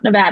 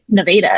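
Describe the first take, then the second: First: It uses the standard state pronunciation. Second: It uses the local Missouri pronunciation. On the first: This is how people elsewhere say it. "It's not Nevada" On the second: This is how people in the South say it. "that's how they pronounce it"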